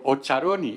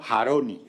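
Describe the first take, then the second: First: The name begins with a 'ch' sound. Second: The name begins with a throaty 'j' sound. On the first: The speaker calls it wrong. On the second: The speaker calls it right. "ya no, Jaroni ... se pronuncia J"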